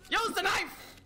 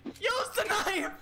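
First: High, frantic game yell; high-pitched urgent shout. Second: High yell with every word stretched; slow, high-pitched desperate shout; drawn-out frantic yell. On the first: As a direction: yell the order in a combat panic. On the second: Repeats the order, drawn out. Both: Real, not acted.

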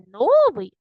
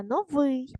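First: Новий with a long, loud first syllable; wrong stress on НО. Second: Новий with a drawn-out second syllable; correct stress on ВИЙ. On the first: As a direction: punch НО in новий as the mistake. (новий з помилковим наголосом на НО) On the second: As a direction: hold the ending of новий long, correcting. (новий з протяжним наголосом на ВИЙ) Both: Shown as a demonstration. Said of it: "Не новий".

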